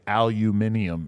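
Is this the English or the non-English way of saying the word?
English. It is said the way people in England say it. "in England specifically, say aluminium"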